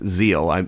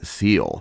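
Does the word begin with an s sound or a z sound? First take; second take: z sound; s sound. First: The word begins with a buzzing z sound. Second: The word begins with a hissing s sound. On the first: The speaker calls it right. "it's Seel, S's are Z's" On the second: The speaker calls it wrong. "I pronounced the German wrong"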